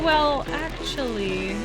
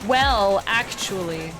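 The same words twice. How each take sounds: First: It is said in a soft, gentle, hesitant tone. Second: It is said in a condescending, know-it-all tone. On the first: The speaker is politely and nervously correcting someone. The speaker calls it right. "I think it depends how you say it. So be like" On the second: The speaker is lecturing the other person. The speaker calls it wrong. "you don't want to be like"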